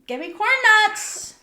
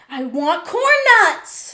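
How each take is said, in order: First: It is said in a higher, rising voice. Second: It is said in a deep, bassy voice.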